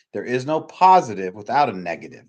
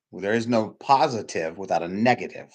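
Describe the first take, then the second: First: "positive" hit louder in the repeat; louder emphatic repeat. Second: Said in the usual way. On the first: Shown as a demonstration. Speaker repeating the rule to the audience, louder, stressing "positive". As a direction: say it again, louder, leaning on "positive".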